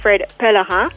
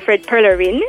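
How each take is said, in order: First: The name is pronounced with French sounds. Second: The name is pronounced with English sounds.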